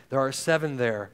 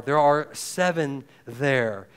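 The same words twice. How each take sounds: First: "seven" punched in "There are seven there"; "seven" stressed and falling at a normal pace. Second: Slow, weighty, leaning on are; each word set down slowly, "are" stressed; emphatic repeat. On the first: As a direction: land hard on the word "seven". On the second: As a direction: stretch out "There are seven there" with the weight on "are". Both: Shown as a demonstration.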